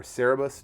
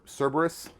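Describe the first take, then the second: First: "Cerebus" with the b moved to the last syllable; "Cerebus" in three syllables, no r after the middle vowel; alternate pronunciation. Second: "Cerberus" with the b straight after the first syllable; "Cerberus" in three syllables, SUR-ber-us; alternate pronunciation. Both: Shown as a demonstration. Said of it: "depending on how you pronounce it".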